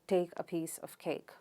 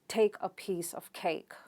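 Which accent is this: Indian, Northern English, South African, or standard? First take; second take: Northern English; standard. First: A Northern English accent, with light aspiration. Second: A standard accent, with strong aspiration. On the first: "People from northern part of England ... with less aspiration" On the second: "the standard variety of English would uh, use aspiration"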